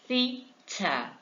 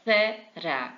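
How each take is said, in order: First: It is said with a British accent. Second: It is said with an American accent.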